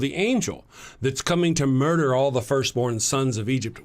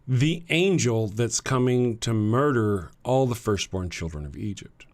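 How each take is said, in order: First: It is said at a normal speed. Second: It is said slowly and deliberately.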